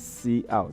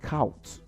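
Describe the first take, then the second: First: It is said as letter C, then out. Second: It is said as one blended syllable. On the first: The speaker calls it right. "we say C out" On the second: The speaker calls it wrong. "we don't pronounce it count"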